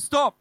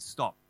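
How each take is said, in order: First: Shouted stop, much higher and louder; sudden shouted stop. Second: Said in the usual way. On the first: Retold or imitated. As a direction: blurt it out across the office. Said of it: "So I'm in the office". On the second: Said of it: "out loud I said".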